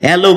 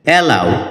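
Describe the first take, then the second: First: The word ends with an 'oh' vowel. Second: The word ends with an 'ow' vowel. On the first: The speaker calls it wrong. "এটাকে আমরা অ্যালো বলে থাকি" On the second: The speaker calls it right. "যার সঠিক উচ্চারণ হচ্ছে অ্যালাউ"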